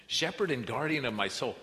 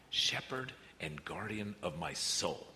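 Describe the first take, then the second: First: "Shepherd and guardian of my soul" ringing out louder and higher; the verse proclaimed boldly from the pulpit. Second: "Shepherd and guardian of my soul" read slowly and gently; a slow, tender reading of the verse; slow reverent reading. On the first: Repeating the verse with force. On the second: Reading the verse, then repeating it. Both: Real, not acted.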